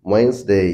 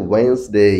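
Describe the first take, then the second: No difference in how they are said.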